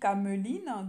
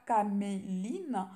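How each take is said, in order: First: The second vowel is a mute e sound. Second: The second vowel is a clear é sound. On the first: "Donc moi je dis cameline" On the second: "J'espère que ce n'est pas caméline"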